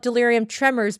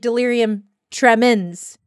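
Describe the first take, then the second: First: The last word ends with a 'mors' sound. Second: The last word ends with a 'mens' sound. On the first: The speaker calls it wrong. "they call it delirium tremors" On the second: The speaker calls it right. "but it's actually delirium tremens"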